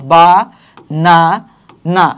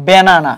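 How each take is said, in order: First: "বা, না, না" with a clear pause after each syllable. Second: Said in the usual way. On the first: Shown as a demonstration. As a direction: break the word into three separate beats: বা, না, না. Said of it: "তখন আমরা কিভাবে বলি". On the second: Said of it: "দেখো একটা word".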